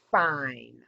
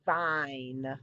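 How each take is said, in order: First: "fine" said louder on a voiceless F. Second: "Vine" opened with a buzzing V; voiced V in vine. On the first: Teacher contrasting voiceless F for the class. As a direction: breathe out the F of "fine". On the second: Teacher modelling voiced V for the class. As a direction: buzz the V in "Vine". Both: Shown as a demonstration. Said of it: "say the pair of words with me".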